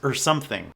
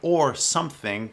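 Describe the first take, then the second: First: The word 'or' is reduced and clipped. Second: The word 'or' is pronounced fully. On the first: "drop the O and it becomes" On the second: "you can say"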